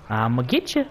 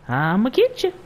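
First: Teasing threat in usual pitch; playful taunt. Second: Sing-song threat pitched way up; high playful taunt. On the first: Player chasing someone in game, playful taunt. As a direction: tease it, lifting at the end. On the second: Player chasing someone in game, high playful taunt. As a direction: tease in a high, mock-menacing voice. Same taunt repeated higher. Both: Pretend.

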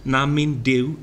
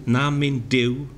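First: "Na min Duw" in Welsh, rising on "min"; Welsh verse recited. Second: "na min Duw" slower, lifting on "na"; slower Welsh recitation. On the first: Teacher reciting Welsh, "Na min Duw" rising on "min". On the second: Teacher repeating "na min Duw" slowly for students. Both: Shown as a demonstration. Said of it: "here are five examples".

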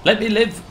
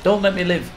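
First: Loud high plea to survive; desperate shout. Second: Loud mock plea, "Don't" hit hard; reverse psychology shout. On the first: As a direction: beg the game loudly to let you live. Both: Real, not acted. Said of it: "they don't believe in reverse psychology".

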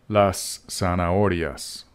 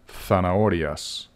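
First: "zanahorias" with the Z said like an S. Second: "zanahorias" with the Z lisped as TH, as in Spain; Spain pronunciation. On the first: Spanish teacher models las zanahorias for students, Z as S. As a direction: say "zanahorias" starting on an S sound, not a buzzed Z. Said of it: "The Z sounds like a S". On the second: Teacher shows students how Spain says it, "zanahorias" with TH. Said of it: "except in Spain, where it's pronounced". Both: Shown as a demonstration.

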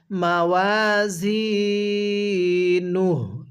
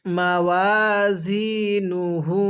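First: মাওয়াজিনুহ drawn out slowly, ending on a bare হ; stopping with waqf. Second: মাওয়াজিনুহু with the final pesh sounded; full ending, no pause. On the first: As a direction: drop the final pesh and stop on মাওয়াজিনুহ. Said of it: "উল্টা পেশটিকে আমরা বাদ দিয়ে দিব". (ওয়াকফ করে মাওয়াজিনুহ, শেষ পেশ বাদ) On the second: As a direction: keep the last হু in মাওয়াজিনুহু. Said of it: "এখন যদি আমরা ওয়াকফ করি". (মাওয়াজিনুহু শেষের পেশসহ পড়া) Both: Shown as a demonstration.

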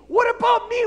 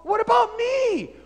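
First: Even higher, louder repeat; louder outraged shout. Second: High, loud cry of injustice; outraged shout. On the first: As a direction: throw it back harder. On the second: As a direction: yell it at Paul. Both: Acted. Philemon argues with Paul.

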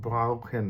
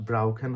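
First: ব্রাউখেন slowly, the r barely sounded; softened R. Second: ব্রাউখেন with a clearly sounded r after b; pronounced R. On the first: Teacher attempting the German way, softened R. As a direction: draw out ব্রাউখেন, swallowing the r after b. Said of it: "এরকম হবে". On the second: Teacher showing what to avoid, pronounced R. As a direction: say ব্রাউখেন with a plain Bengali r. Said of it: "হবে না". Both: Shown as a demonstration.

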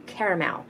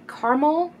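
First: "caramel" in three syllables, CARE-uh-mel; three-syllable variant. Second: "caramel" squeezed to two syllables, CAR-mul; two-syllable variant. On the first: Asking viewers how they say it, "caramel" as CARE-uh-mel. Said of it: "I say caramel". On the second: Asking viewers how they say it, "caramel" as CAR-mul. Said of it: "do you guys say caramel". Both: Shown as a demonstration.

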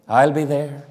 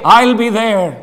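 First: Much lower and softer, a hushed echo of the vow; quiet lower repeat of I'll be there. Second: Said in the usual way. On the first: Shown as a demonstration. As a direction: drop it down low and quiet, like an afterthought. Preacher repeats vow, then echoes softly.

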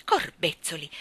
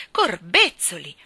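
First: Understated, wondering exclamation; contained astonishment. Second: Loud, drawn-out exclamation; emphatic astonishment. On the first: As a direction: let it out under restraint, amazed. Astonished keeper's first, more contained exclamation. (stupore contenuto) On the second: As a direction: burst out slowly in amazement. Astonished keeper repeats it louder. (stupore esclamato a voce alta) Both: A narrator's reading.

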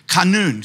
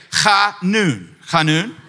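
First: Chanun with a throaty guttural ch like kh; Hebrew guttural. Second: Chanun with a rasping back-of-throat ch; chanun, khah-NOON, the ch scraped in the throat; guttural Hebrew. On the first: Teaching the congregation the Hebrew word, guttural chanun. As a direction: chanun said khah-NOON, guttural at the start. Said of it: "So go ahead and say it". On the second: Pastor drilling the congregation on the Hebrew word, guttural chanun. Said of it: "you gotta get that little guttural". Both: Shown as a demonstration.

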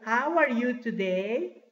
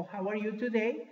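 First: Slow, stretched question with rising end; slow model question. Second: Said in the usual way. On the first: Shown as a demonstration. Teacher asking class how they are, slow model question. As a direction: ask it slowly for learners.

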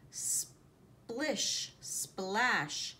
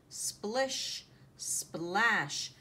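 Both takes have the same delivery.

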